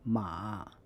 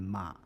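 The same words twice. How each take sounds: First: The tone dips low and rises again. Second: The tone stays low without rising again. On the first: "the third tone" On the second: "retain only the first half of the third tone"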